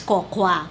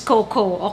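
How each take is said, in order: First: The second syllable sounds like 'kwa'. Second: The second syllable sounds like 'ko'. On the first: The speaker calls it wrong. "nung hindi pa natin alam yung tamang pronunciation ng Coco" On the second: The speaker calls it right. "I will pronounce it as Coco"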